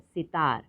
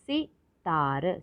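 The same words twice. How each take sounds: First: Said in the usual way. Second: सितार slowly split as सि, ता, र; syllable by syllable. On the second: Shown as a demonstration. Teacher sounding out सितार for learners, syllable by syllable. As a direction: separate each piece of सितार. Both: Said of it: "तो शब्द पढ़ते हैं".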